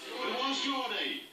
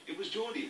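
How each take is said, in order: First: Slow, drawn-out rhythm. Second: Said in the usual way. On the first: Shown as a demonstration. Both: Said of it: "from the rhythm we understood".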